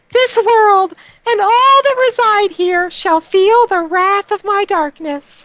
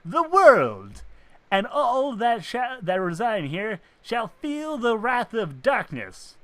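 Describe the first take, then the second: First: Very high, strange villain voice; booming echoing villain monologue. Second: Slow, higher villain proclamation; booming echoing villain monologue. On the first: Shown as a demonstration. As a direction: shriek it like a cartoon overlord. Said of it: "the voice I gave was more". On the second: Acted. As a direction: proclaim doom like a dark lord. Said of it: "the voice you gave that character".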